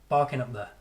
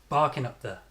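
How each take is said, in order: No difference in how they are said.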